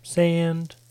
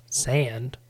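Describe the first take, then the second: First: "sand" punched louder, a little higher; "sand" louder and stretched; emphatic repeat. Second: Said in the usual way. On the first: Shown as a demonstration. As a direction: hit "sand" hard as a comic list. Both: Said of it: "very Tatooine-esque scape of sand".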